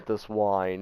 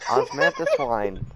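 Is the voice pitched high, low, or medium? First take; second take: low; high. First: The voice is pitched lowest and deepest. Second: The voice is pitched highest of the three. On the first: The speaker calls it right. "There it is" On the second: The speaker calls it wrong. "That's not it"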